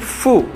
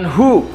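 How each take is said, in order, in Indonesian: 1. Suku kata ini diawali bunyi 'f'. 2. Suku kata ini diawali bunyi 'h'. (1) "tapi Fu, dibacanya F U" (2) "bukan Hu ya"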